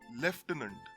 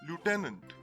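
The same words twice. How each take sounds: First: The first syllable sounds like 'lef'. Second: The first syllable sounds like 'loo'. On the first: This is the British pronunciation. "There is a mention of an F here" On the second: This is the American pronunciation. "The Americans pronounce this word literally as it looks"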